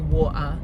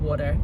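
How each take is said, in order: First: It is said in a thick Cockney accent. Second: It is said in an American accent.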